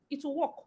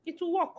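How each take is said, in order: First: Hushed. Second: Quiet, knowing aside; softly driving it home; softer hushed repeat. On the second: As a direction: let it drop under the breath. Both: Shown as a demonstration.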